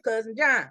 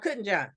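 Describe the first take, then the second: First: Each sound of the name is said clearly. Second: The name is said fast with sounds blurred. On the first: "we called him Cousin John" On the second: "if we were saying it fast, it came out Couldn't John"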